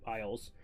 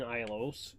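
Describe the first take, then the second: First: Said in the usual way. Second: Isles stretched into two syllables, "eye-lohs"; mispronounced Isles. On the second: Real, not acted. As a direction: say Isles with an extra "oh", as "EYE-lohz".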